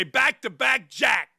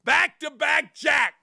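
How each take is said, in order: First: Slow, drawn-out mock shout; playful slow shout; retold catchphrase shout. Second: "Back-to-back jack" shouted slow and high, leaning on "jack"; stress on jack. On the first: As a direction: bellow it like a trash-talking player. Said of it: "I used to say". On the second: Shown as a demonstration. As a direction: hit "jack" hard. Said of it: "if you emphasize the jack".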